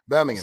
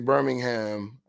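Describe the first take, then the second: First: It is said in a British accent. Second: It is said in an American accent.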